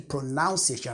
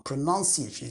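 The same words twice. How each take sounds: First: "pronunciation" said with "nown" as in pronounce, pro-NOWN-see-ay-shun; the common error, "pronunciation" with the "noun" vowel of pronounce; "pronunciation" mispronounced as pro-nown-ciation; wrong pronunciation. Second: "pronunciation" with a short "nun" sound, pro-NUN-see-ay-shun; "pronunciation" said right, second syllable like "nun", not "noun"; careful "pronunciation" with "nun" in the middle; correct pronunciation. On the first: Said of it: "I'm not saying pronunciation". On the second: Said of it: "I'd rather say pronoun-, pronunciation".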